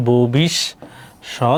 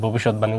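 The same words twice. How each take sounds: First: "ভবিষ্যৎবাণী" very slow, in separate chunks: bho-bish, shot, bani; syllable by syllable. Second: Said in the usual way. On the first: Shown as a demonstration. Teacher confirming it for students, "ভবিষ্যৎবাণী" slowly syllable by syllable. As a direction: break "ভবিষ্যৎবাণী" into slow, firm parts with pauses. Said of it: "তাহলে কি?". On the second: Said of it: "উচ্চারণ হবে ভবিষ্যৎবাণী".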